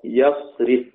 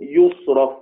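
First: The verb is said with open first, i-vowel middle. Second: The verb is said with u first, a-vowel middle. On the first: The doer of the action is named. "بفتح الياء وكسر الراء يصرف" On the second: The doer of the action is left unnamed. "والباقون باقي السبعة يصرف مبني للمجهول"

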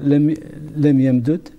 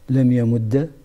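First: The doubled d is split, ending without vowel. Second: The doubled d ends with a short a.

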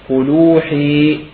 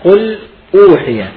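First: The glottal stop is dropped, the words run together. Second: The glottal stop starts the second word.

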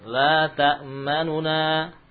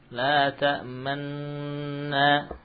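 First: A short, quick vowel separates the two nun sounds. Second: The two nun sounds merge into one doubled nun. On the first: "Itu ikhtilas membaca 2/3 harakat" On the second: "itu ismam"

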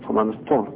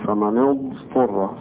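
First: The ḍād sound is blurred, not clearly pronounced. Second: The ḍād sound is clear and drawn out. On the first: The speaker calls it wrong. "ده خطأ" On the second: The speaker calls it right. "يبقى الضاد وضحت وظهرت فيه ويستطيل فيها"

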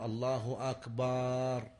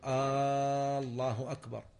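First: The vowel in the second word is drawn out. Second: The opening vowel of the first word is drawn out. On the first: The second word becomes the plural of drum. "أو يمد أكبر" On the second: It turns the statement into a question. "مثل أن يمد الهمزة في اسم الله"

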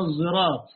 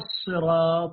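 First: The first consonant sounds close to a z. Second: The first consonant is an emphatic s sound. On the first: "بإشمامها إلى الزين إلى الزاي، كأنها قريبة من الزاي" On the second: "هي بالصاد"

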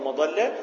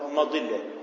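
First: The vowel on the ḍ is a. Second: The vowel on the ḍ is i. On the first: This is the regular, rule-following form. "وجه على القياس وهو مضلة" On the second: This is an irregular form known from usage. "ووجه على الشذوذ وهو مضلة"

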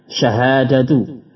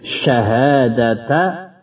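First: The word ends with a short 'u' vowel. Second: The word ends with a short 'a' vowel. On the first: It is the subject of the sentence. "maka syahadatu dengan dhamma" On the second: It is the predicate of the sentence. "syahadata alla ilaha illallah dengan fathah"

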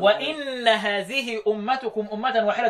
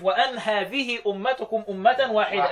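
First: The first word begins with an 'i' vowel. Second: The first word begins with an 'a' vowel. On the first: "مين اللي قرأ بالكسر واكسر الاولى وان سواء؟" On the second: "وأن هذه بالفتح والتخفيف"

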